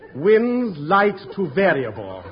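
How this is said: It is said warmly, with a smile.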